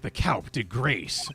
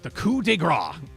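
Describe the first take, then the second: First: It is pronounced in an American way. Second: It is pronounced in a French-like way.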